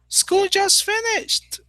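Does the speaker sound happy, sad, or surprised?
happy. It is said in a happy, excited tone. The end of school is good news. "And everybody says, wow, yes"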